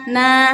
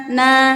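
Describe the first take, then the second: First: The vowel is open with the jaw dropped. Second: The same.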